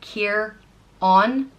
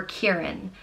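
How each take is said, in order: First: "Kier-on" drawn out slowly, stressing Kier; slow syllables. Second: "Kieran" said quicker, run together; the easy everyday "Kieran"; quicker alternative. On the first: Modelling the name for a learner, slow syllables. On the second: Offering the alternate way to say it, relaxed. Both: Shown as a demonstration. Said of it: "it's pronounced".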